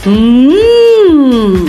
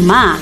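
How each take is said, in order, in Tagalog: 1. Ang katinig ay isang huni na nakasara ang labi, mag-isa lang. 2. Ang katinig ay sinusundan ng bukas na patinig. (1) "ang letrang M ay kailangang basahin ng mm" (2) "Mali ang pagbasa ng ma"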